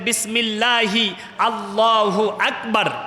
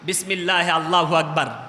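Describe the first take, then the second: First: Each sound of the phrase is pronounced carefully. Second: The sounds of the phrase are pronounced carelessly. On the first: The speaker calls it right. "যখন জবা দেবেন বলবেন" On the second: The speaker calls it wrong. "কিন্তু আমরা অনেক সময় বলি"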